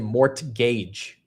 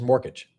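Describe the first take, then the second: First: The middle T is pronounced with extra effort. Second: The middle T is dropped, sounding like more cage.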